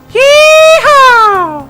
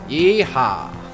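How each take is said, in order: First: The shout is said with more emphasis. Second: The shout is said with less emphasis.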